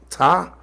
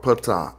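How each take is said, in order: First: The name starts with a T sound, no P. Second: The name starts with a P sound before T. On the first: "with the T" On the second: "I say patah"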